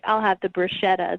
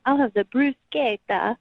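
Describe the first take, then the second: First: Bruschetta is said with a plain English pronunciation. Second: Bruschetta is said with an Italian-style pronunciation.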